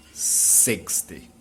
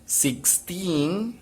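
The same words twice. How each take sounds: First: "sixty" lower, falling off; "sixty" stressed first, falling away; stress at the start. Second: Put-on "Sixteen" higher, rising on "teen"; "Sixteen" stressed last, rising; stress at the end. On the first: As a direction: let "sixty" drop after "six". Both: Shown as a demonstration. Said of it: "Let's repeat it again".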